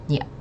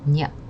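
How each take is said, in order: First: The ending is squeezed into one glided syllable. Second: The same.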